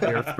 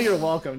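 First: Laughing mock pompous reply. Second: Pompous. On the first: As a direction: say it smugly, laughing. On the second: Retold or imitated. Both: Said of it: "do I sound like a pompous prick".

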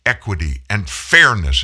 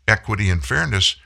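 First: Fairness hit harder as a loaded term; stressed term. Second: Said in the usual way. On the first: Shown as a demonstration. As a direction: lean on fairness like a quoted buzzword. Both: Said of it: "When they begin to use the term".

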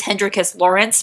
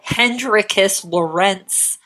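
First: "Lawrence" said quickly, stressed on the first syllable; regular English name. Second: "Lorentz" said slowly, stressed on the second syllable; foreign-style surname. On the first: Host corrects the name, "Lawrence" as everyday LAW-rence. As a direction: say "Hendrikus Lawrence" ending as ordinary LAW-rence. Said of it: "it's just Lawrence, regular, regular name". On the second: Host savours a cool name, "Lorentz" as loh-RENTS. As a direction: draw out "Hendrikus Lorentz", ending loh-RENTS. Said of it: "also known as Lorentz". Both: Shown as a demonstration.

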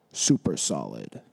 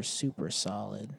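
First: Deep silly echo of the phrase; deep goofy voice. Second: Said in the usual way. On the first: Pretend. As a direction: drop way low and repeat it.

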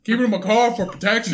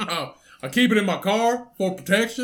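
First: Put-on Southern accent. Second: Lightly voiced stoner; a hint of a lazy stoner. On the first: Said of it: "Now he sounds like he's from North Carolina". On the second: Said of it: "That's how he sounded".

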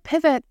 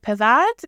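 First: Pivot called out higher; retold yell. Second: Said in the usual way. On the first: To her husband moving a couch, Pivot called out sharply. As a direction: bark Pivot like a command. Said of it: "Why are you yelling at me?". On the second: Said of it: "I'm like".

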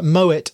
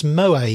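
First: "Moet" with the final t sounded; correct pronunciation. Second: "Moët" as moh-AY, silent t; mistaken pronunciation. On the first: Shown as a demonstration. Telling her how he corrects people on champagne, correct pronunciation. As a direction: say "Moet" as MOH-ett. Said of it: "I often correct people". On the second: Retold or imitated. Quoting people who correct him on champagne, mistaken pronunciation. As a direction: say "Moët" French-style, ending in "-ay". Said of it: "and people say".

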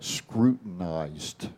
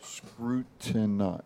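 First: Drawn out slowly, syllable by syllable; slow deliberate word. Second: Drawn-out Scrutini- at half speed; slow deliberate word. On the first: Announcing his word of the day to the hosts, slow and deliberate. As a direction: savor each syllable of the big word. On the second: Trying to count the syllables on air, slowly. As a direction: sound out Scrutini- slowly, then lose the thread. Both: Shown as a demonstration. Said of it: "I'm gonna give my word for the day".

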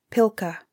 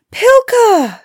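First: Said in the usual way. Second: High, loud, joyful-story call to a dog; crying out. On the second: A narrator's reading. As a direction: call the dog's name loudly, pitched way up. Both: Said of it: "Ilona cried".

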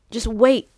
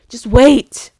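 First: Said in the usual way. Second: Loud, emphatic burst; emphatic plea. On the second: Real, not acted. Pleading with viewers to wait, loud and emphatic. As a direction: punch WAIT out loudly.

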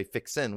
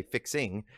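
First: "fixin'" ending in a plain n; dropped-g fixin'. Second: "fixing" with a clear ng ending; full -ing fixing. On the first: Preacher showing what Illinois doesn't say, "fixin'" with dropped g. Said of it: "we don't say fixin'". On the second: Preacher showing the Illinois way, "fixing" with full -ing. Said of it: "we say fixing". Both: Shown as a demonstration.

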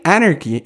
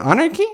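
First: "Anarchy" said with a falling tune and a long final vowel; settled answer. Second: "Anarchy?" asked with a sharp rising pitch, searching for the word; puzzled question. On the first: Lafayette finding the word, with a firm falling close. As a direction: land "Anarchy" with confidence, drawing out the end. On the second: Lafayette fumbling for the English word, with a questioning rise. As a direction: ask "Anarchy?" as if unsure it's right. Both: Retold or imitated. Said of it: "pero mal dicho porque es francés".

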